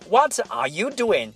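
Every word gets roughly equal stress and length. The speaker calls it wrong. "千万不要把它说成What are you doing? No, that's not English. That's very awkward"

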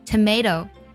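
American accent, middle syllable 'may', flapped t. "美式的发音"

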